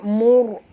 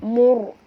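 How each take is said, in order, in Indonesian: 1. Huruf r dibaca tebal dan penuh. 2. Huruf r dibaca tebal dan penuh.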